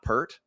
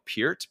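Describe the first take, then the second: First: The surname is said like 'Pert'. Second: The surname is not said like 'Pert'. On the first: The speaker calls it wrong. "It's not Pert" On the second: The speaker calls it right. "that's how you actually pronounce his name"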